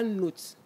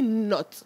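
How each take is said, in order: First: The vowel is long, as in 'note'. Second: The vowel is short, as in 'knot'. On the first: The speaker calls it wrong. "on ne dit pas note" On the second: The speaker calls it right. "on dit not"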